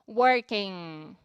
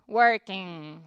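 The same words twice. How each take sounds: The two takes are said the same way.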